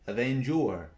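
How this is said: It is said in an American accent.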